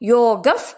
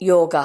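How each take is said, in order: First: The word ends with an f sound. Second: The word ends with a breathy h sound. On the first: "ಯೋಗಫ್ ಅಂತ ಹೇಳಬೇಕು" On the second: "ಯೋಗ ಪದದ ಜೊತೆ ವಿಸರ್ಗ ಸೇರಿ ಯೋಗ ಅಂತ ಹೇಳ್ತೇವೆ"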